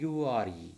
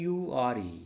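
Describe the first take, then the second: The two takes are said the same way.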